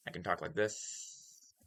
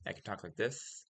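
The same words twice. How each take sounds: First: A softer put-on voice with odd S sounds; hissy S voice. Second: Said in the usual way. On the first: Shown as a demonstration. Streamer shows off another voice, hissy S's. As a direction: bend "like this" with slushy S's. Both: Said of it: "How do I pronounce my S's like that?".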